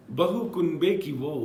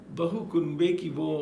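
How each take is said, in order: Both takes have the same delivery.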